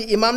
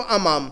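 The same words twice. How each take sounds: First: इमाम said with a front "i" at the start, as the mistake; इमाम with the wrong "i" sound; wrong vowel shown. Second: अमाम said with an open "a" at the start; अमाम, starting on an open "a", not "i"; correct Arabic vowel. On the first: Teacher warns students off the wrong reading: इमाम with an "i" sound. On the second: Teacher gives the right reading of in front of: अमाम with an "a" sound. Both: Shown as a demonstration. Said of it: "इमाम नहीं पढ़ना इसको".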